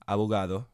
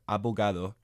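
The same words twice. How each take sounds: First: The b is a soft, weakened consonant. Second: The b is a full stopped consonant.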